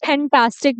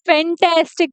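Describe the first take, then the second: First: "फैंटास्टिक" as phen-TAAS-tik, puffed P; imitated mispronunciation. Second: "फैंटास्टिक" as fen-TAS-tik, true F; correct pronunciation. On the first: Teacher imitating students' habit, "फैंटास्टिक" mispronounced phen-taastic. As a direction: copy learners saying "फैंटास्टिक" with long "aa". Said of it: "बहुत सारे दोस्तों को आदत है". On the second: Shown as a demonstration. Teacher correcting students, "फैंटास्टिक" said fen-tas-tik. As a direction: say "फैंटास्टिक" with F and short "tas" as in cat. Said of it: "पर दोस्तों इसको".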